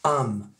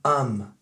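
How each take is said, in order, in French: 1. Il se réduit à un son 'am' bref. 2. Il se réduit à un son 'am' bref.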